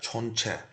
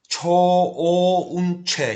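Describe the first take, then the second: First: The first syllable is said short and compact. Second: The first syllable is drawn out into two.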